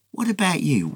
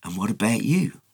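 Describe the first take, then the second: First: "What" pushed high and hit hard, then falls; a direct challenge, "What" raised high, level held; pointed question. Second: Said in the usual way. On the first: Shown as a demonstration. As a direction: press the listener with "What about you?". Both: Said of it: "has left it hanging to say".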